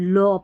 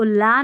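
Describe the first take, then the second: First: The vowel is a rounded 'aw'. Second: The vowel is an open unrounded 'ah'. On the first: The speaker calls it right. "लॉ पढ़ेंगे" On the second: The speaker calls it wrong. "इसको ला नहीं"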